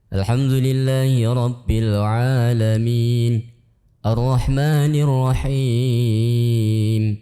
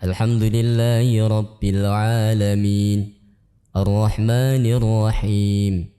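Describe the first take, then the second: First: One verse ending is held longer than the other. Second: Both verse endings are held equally long. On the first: The speaker calls it wrong. "Tidak boleh salah satunya panjang" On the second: The speaker calls it right. "seperti itu"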